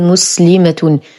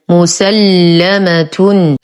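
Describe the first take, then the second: First: The l sound is single and short. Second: The l sound is doubled and held. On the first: The speaker calls it wrong. "ولا نقول مسلمة" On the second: The speaker calls it right. "بتشديد اللام مع الفتح"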